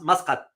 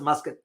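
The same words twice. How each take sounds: First: The name is said with Arabic pronunciation. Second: The name is said with English pronunciation. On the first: "in Arabic is pronounced" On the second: "in English, we pronounce it"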